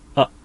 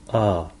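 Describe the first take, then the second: First: The vowel is cut off sharply at the end. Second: The vowel trails off gradually at the end. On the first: "あってこう声を出してからすぐに声音がクッとストップをかける" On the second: "そんなに声紋をカツッと締めずに、まあ、ちょっと垂れ流してしまってる"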